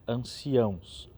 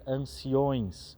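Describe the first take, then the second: First: The word ends with an 'ãos' sound. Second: The word ends with an 'ões' sound. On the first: The speaker calls it right. "falar corretamente" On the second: The speaker calls it wrong. "anciões é uma forma de pronunciar que não existe"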